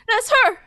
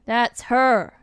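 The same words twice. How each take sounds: First: It is said in an excited, energetic tone. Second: It is said in a calm, normal tone.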